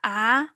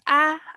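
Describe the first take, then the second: First: The syllable is said with the second tone. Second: The syllable is said with the first tone.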